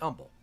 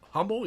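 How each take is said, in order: First: The word begins without any H sound. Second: The word begins with an audible H sound.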